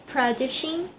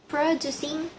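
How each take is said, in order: No difference in how they are said.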